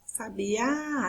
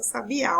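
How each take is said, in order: First: "Sabiá" with the last Á drawn out; stress on final Á. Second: Said in the usual way. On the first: Shown as a demonstration. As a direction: hold the final Á of "Sabiá" long. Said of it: "a sílaba mais forte é o A". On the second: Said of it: "a sílaba mais forte".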